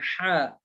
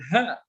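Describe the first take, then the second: First: The h sound is deep in the throat. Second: The h sound is light and breathy. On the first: The speaker calls it right. "bahkan sebutnya dengan ha" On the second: The speaker calls it wrong. "jangan kata Muhammad dengan ha"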